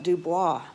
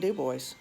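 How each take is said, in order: First: The name is said with a Cajun French pronunciation. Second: The name is said with a plain English pronunciation. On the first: This is how people in Louisiana say it. "in Louisiana we would call it Dubois for our Cajun French pronunciation" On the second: This is how locals in Wyoming say it. "up there it's just plain Dubois"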